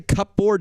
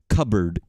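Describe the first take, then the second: First: It is said with a clear p and full 'board'. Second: It is said as 'cubbard' with no p sound. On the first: The speaker calls it wrong. "Does anybody say cupboard?" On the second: The speaker calls it right. "Because I say cupboard. C U B B A R D"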